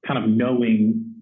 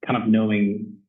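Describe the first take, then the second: No difference in how they are said.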